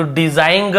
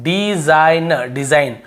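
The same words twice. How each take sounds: First: डिजाइन ग with a G tacked on the end; wrong sounded-G pronunciation. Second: डिजाइन ending cleanly on N; silent-G pronunciation. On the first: Teacher showing the reading to avoid, डिजाइन ग with G. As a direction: say डिजाइन ग as "dizaing", G heard. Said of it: "ऐसे ग को नहीं पढ़ रहे". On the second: Teacher showing students what is read, डिजाइन without G. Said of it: "हम इसे क्या पढ़ रहे हैं". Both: Shown as a demonstration.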